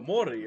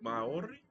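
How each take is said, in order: First: The first vowel has no separate 'a' sound. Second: The first vowel includes a separate 'a' sound. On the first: The speaker calls it right. "Don't pronounce the A. ... that's very close" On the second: The speaker calls it wrong. "Did I do it right?"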